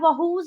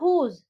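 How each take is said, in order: First: The word starts with a 'w' sound. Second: The word starts with an 'h' sound. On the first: The speaker calls it wrong. "उसको व्हाट या वहूज नहीं बोलेंगे" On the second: The speaker calls it right. "हम उसको बोलेंगे व्हाट या हुज"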